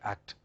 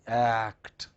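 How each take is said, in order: First: The word is said quickly and clipped. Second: The word is said slowly and carefully. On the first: The speaker calls it wrong. "we are in a hurry. We don't say act, we say act" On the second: The speaker calls it right. "We don't say act"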